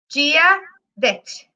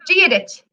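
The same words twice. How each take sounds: First: It is said slowly. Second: It is said at natural speed.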